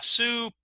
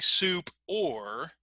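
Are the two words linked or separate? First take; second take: linked; separate. First: The words run together as one word. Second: The words are said as two separate words. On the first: "if we link them together" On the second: "instead of saying soup or"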